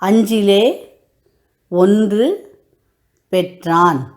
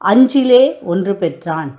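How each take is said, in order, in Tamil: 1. இந்த வரி மெதுவான வேகத்தில் சொல்லப்படுகிறது. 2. இந்த வரி வேகமான வேகத்தில் சொல்லப்படுகிறது.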